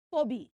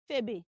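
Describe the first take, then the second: First: Phoebe as "foh-bee"; wrong pronunciation. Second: Phoebe as "feh-bee"; short E in the first syllable of Phoebe; wrong pronunciation. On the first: Teacher rejects another mistake, Phoebe as "foh-bee". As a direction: round O in the first syllable of Phoebe. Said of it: "It is not Phoebe". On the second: Teacher rejects a mistake, Phoebe as "feh-bee". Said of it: "That name is not Phoebe". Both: Shown as a demonstration.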